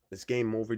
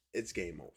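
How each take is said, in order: First: Restating "It's game over" firmer and louder; emphatic repeat. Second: Said in the usual way. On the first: Shown as a demonstration. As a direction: say "It's game over" again with more punch on "game".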